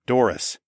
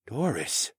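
First: Said in the usual way. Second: Soft stunned whisper of "Doris". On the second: A narrator's reading. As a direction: breathe "Doris?" barely aloud. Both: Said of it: "Saul whispered".

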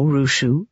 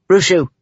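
First: Mild chiding; gently chiding. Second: Firm, falling call of the name; mildly stern interruption; a little firmly. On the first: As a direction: say the name as a gentle reminder. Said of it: "in a gently chiding voice". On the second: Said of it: "a little more firmly this time". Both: A narrator's reading.

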